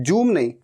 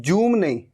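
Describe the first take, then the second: No difference in how they are said.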